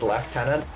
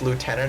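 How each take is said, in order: First: It is said in a British accent. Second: It is said in an American accent.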